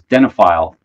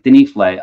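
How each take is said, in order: First: The middle syllable sounds like 'noph'. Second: The middle syllable sounds like 'nif'. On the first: The speaker calls it wrong. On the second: The speaker calls it right.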